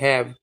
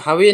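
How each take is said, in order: First: The word ends on the v consonant. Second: The word ends with an extra vowel sound. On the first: The speaker calls it right. "इसको पढ़ते हैं हैव" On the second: The speaker calls it wrong. "इसको हम हावे नहीं पढ़ते"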